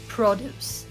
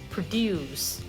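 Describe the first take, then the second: First: The stress is on the first syllable. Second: The stress is on the second syllable. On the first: It is used as a noun. "if it is the noun, you have to say produce" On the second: It is used as a verb. "And for the verb, produce"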